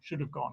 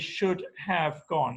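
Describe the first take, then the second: First: The word have is reduced, like of. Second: The word have is said with a full vowel. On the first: "They would never say" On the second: "they would say"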